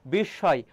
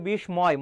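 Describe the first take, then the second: First: "বিস্ময়" said bish-shoy, m left silent. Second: "বিস্ময়" said bish-moy with a sounded m; m pronounced. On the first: Teacher modelling for students, "বিস্ময়" as bish-shoy. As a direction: double the sh and drop the m in "বিস্ময়". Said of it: "ম ফলার উচ্চারণ হবে না". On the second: Teacher showing a common mistake, "বিস্ময়" as bish-moy. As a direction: put a clear m after sh in "বিস্ময়". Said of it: "অনেকে উচ্চারণ করে". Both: Shown as a demonstration.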